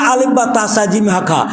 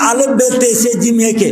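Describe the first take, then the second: First: The letter names end in an 'a' vowel. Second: The letter names end in an 'e' vowel. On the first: This is the current way of saying them. The speaker calls it right. "আর এখন বলে" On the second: This is the older way of saying them. The speaker calls it wrong. "তখন আরবির উচ্চারণ করা হতো"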